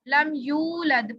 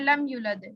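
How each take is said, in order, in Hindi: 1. 'yu' स्वर को लंबा खींचा गया है। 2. 'yu' स्वर को छोटा काटा गया है। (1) "थोड़ा सा लंबा करते हैं" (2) "अगर हमने इसको कम कर दिया"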